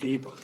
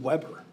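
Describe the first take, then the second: First: The name begins with a V sound. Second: The name begins with a W sound. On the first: The speaker calls it right. "He's German, so the W's become V's" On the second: The speaker calls it wrong. "isn't it Weber? It says Weber"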